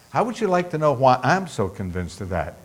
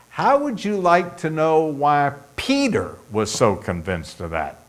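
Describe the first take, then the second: First: Softer aside leaning on "I'm"; stress on I'm. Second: "Peter" punched out after a brief hold; stress on Peter. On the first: Preacher offering listeners his own reasons, softer, stress on "I'm". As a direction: swap in "I'm" as the contrast, softly. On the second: Preacher offering listeners the apostle's reasons, stress on "Peter". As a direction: set "Peter" apart as the key word. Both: Real, not acted.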